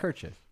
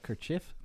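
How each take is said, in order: First: The stress is on the first syllable. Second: The stress is on the second syllable. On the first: The speaker calls it right. "Emphasis on the first syllable" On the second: The speaker calls it wrong. "Not a kerchief"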